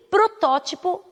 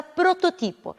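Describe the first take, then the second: First: Protótipo stressed on TÓ, drawn out; Portuguese pronunciation. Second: Prototipo stressed on TI; Spanish pronunciation. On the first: Teacher giving the Portuguese word, stress on TÓ. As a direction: slowly hit TÓ in protótipo. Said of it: "em português". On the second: Teacher giving the Spanish word, stress on TI. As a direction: hit TI in prototipo. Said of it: "em espanhol será". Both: Shown as a demonstration.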